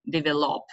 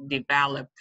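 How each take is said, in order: First: DEVELOP with stress on the wrong syllable, as learners say it; a learner's misplaced stress on "develop"; mispronounced. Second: DEVELOP stressed on the middle syllable, de-VEL-op; correct word stress. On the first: Teacher shows trainees a common learner mistake, mispronounced. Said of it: "one of the common mispronunciations". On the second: Teacher corrects the learners' mistake, correct word stress on develop. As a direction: say "develop" quickly with the beat on VEL. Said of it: "It should be develop". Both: Shown as a demonstration.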